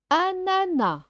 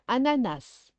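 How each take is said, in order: First: "Ananas" high, ending on an open "na"; silent final S. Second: "ananas" ending in an audible s; sounded final S. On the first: Teacher offering one of two pronunciations, "Ananas" with silent s. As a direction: say "Ananas" without the final s sound. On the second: Teacher offering the other pronunciation, "ananas" with sounded s. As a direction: pronounce the last s of "ananas". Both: Shown as a demonstration. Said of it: "Ou bien ananas".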